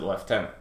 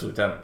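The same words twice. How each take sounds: First: Lieutenant said as "lef-TEN-ant"; British "leftenant". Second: Said in the usual way. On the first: Retold or imitated. Puzzled viewer quoting the movie actor, British "leftenant". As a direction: say lieutenant with "lef" in place of "loo". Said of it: "he just pronounced it lieutenant". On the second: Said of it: "but he just pronounced it".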